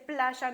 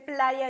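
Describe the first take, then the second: First: The y sounds like sh, Argentine style. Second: The y sounds like a plain y.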